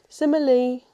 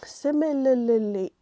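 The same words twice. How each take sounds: First: The word is missing an L sound. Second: The word has an extra L sound. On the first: "that's not enough L's" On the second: "that's too many L's"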